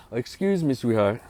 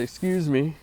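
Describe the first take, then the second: First: Polite retold request. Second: Softly polite "Excuse me"; courteous, gentle "Excuse me". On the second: Retold or imitated. Asking a store worker to pass, gently polite. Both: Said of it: "very politely".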